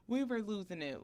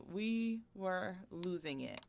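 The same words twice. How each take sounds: First: Said in the usual way. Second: Each word of "We were losing it" drawn out slowly; slow emphasis. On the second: Retold or imitated.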